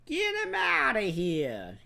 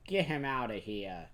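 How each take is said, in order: First: High, slow, hammed-up Italian mobster order; louder, stretched-out mobster impersonation. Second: Said in the usual way. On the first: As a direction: bark it like a cartoon Italian mob boss. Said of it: "He turns into an Italian mobster". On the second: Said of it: "And he's like".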